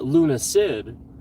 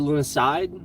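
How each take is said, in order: First: The last syllable sounds like 'sid'. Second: The last syllable sounds like 'side'. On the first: "there's no e at the end" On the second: "Luna Side would be I D E"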